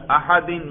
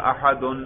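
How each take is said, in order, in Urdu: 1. لفظ کی آواز -in پر ختم ہوتی ہے۔ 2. لفظ کی آواز -an پر ختم ہوتی ہے۔ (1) "میں کون سا اعراب پڑھ رہا ہوں؟ جر" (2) "نصب پڑھوں گا آپ کو سننے سے پتا چل جائے گا"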